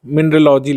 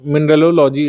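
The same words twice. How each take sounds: First: "mineralogy" with a single lo, mineral-ogy; syllable dropped. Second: "mineralogy" with a doubled lo, mineral-o-logy; full form. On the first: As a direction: say only one "lo" in "mineralogy". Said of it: "अब इसको mineralogy लिख दें". ("mineralogy" को मिनरलॉजी बोलें, एक ही लो) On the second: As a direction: add an extra "lo" in "mineralogy". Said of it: "तो इसको haplology बोलते हैं". ("mineralogy" को मिनरलोलॉजी बोलें) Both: Shown as a demonstration.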